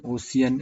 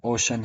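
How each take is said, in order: First: ओशियन as o-si-yan, rising; wrong pronunciation. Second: ओशन said o-shan, two syllables; plain two-beat ओशन; correct pronunciation. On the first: Teacher repeating the mistaken ओशियन for students. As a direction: draw out ओशियन in three syllables. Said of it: "ओशियन ये नहीं है". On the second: Teacher correcting students with ओशन. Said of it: "ओशन है". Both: Shown as a demonstration.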